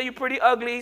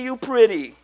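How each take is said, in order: First: Mock backhanded compliment; wrong version. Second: Said in the usual way. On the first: Shown as a demonstration. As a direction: tack on ugly as a teasing jab. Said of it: "Don't say".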